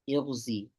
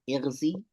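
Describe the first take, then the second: First: The first vowel is i with rounded lips. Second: The first vowel is a plain, unrounded i. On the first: "or ishmam" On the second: "Clear kasra"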